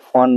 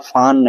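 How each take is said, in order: First: The vowel is a rounded oh. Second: The vowel is a long open ah. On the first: "फ़ोन नहीं पढ़ेंगे" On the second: "फान नहीं पढ़ेंगे"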